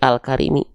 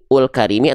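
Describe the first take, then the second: First: The first vowel is an a sound. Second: The first vowel is a u sound. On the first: The speaker calls it right. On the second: The speaker calls it wrong.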